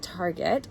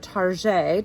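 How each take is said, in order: First: The word ends with a plain English t sound. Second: The word ends with a French-sounding zhay sound. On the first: The ordinary way of naming the store. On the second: A playfully fancy way of naming the store.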